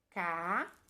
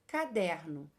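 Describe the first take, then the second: First: Ca-der-no with long pauses between syllables; three separate syllables, ca, der, no. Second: Said in the usual way. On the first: Shown as a demonstration. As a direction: sound out ca... der... no in three pieces. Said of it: "Quantas vezes eu abri minha boquinha?". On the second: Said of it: "Quando eu falo caderno".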